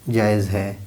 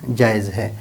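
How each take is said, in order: No difference in how they are said.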